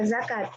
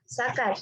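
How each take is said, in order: First: The word begins with a z sound. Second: The word begins with an s sound. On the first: The speaker calls it right. "pembenarannya adalah" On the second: The speaker calls it wrong. "fonem Z diucapkan menjadi S. Contoh kata yang salah"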